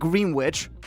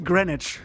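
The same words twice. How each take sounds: First: The name is said as it is spelled. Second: The name is said in a shortened form. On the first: The speaker calls it wrong. "It's not Greenwich" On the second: The speaker calls it right. "that's how you pronounce Greenwich"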